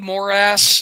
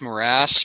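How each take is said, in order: First: It sounds like the two words 'more ass'. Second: It does not sound like 'more ass'. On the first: "I love pronouncing it that way because it does sound like more ass" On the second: "I think it's morass"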